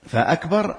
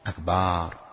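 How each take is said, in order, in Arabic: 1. الحركة بعد الباء قصيرة. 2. الحركة بعد الباء تُمَدّ فتطول. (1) "همزة قطع كما قلنا" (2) "مد فتحة الباء، الباء فتحة فأشبعها بأن جعلها باء أكبار، لم تنعقد"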